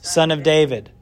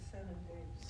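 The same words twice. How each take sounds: First: Said in the usual way. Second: Breathy whisper, no voice at all; feed the answer under your breath; hushed cue for the class; whispered prompt. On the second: Shown as a demonstration.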